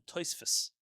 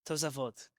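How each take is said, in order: First: The name has no middle 'sa' syllable. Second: The name has a middle 'sa' syllable.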